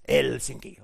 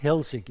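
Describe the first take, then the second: First: Helsinki with a strong, drawn-out first vowel, HEL-sinki; first vowel stressed. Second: Said in the usual way. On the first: Shown as a demonstration. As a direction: lean hard on the E in Helsinki, say it slowly. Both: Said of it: "pronounce the first vowel strongly".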